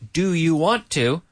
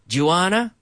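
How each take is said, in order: First: 'Want to' is said as two separate words. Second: 'Want to' is blended into one word, 'wanna'. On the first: "my grammar book said" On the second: "And you just said"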